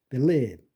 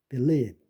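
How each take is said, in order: Both takes have the same delivery.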